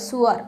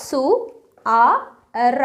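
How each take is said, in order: First: Said in the usual way. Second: സു ആ എർ split into slow separate syllables with pauses; sounding out syllables. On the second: Shown as a demonstration. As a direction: spell out സു, then ആ, then എർ, one at a time. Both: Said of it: "എഴുതിയിട്ട് നോക്കുക".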